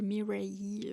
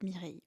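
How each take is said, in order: First: The name is said with an American accent. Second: The name is said with a French accent. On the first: "c'est prononcé à l'américaine" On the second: "moi je dis Mireille en mode"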